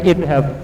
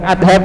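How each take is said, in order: First: The first vowel is a front 'i' sound. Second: The first vowel is an open 'a' sound. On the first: The speaker calls it right. "tapi idhab" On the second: The speaker calls it wrong. "bukan adhab"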